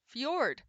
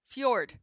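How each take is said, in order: First: The word has a Y sound and ends in D. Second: The word has a Y sound and ends in D.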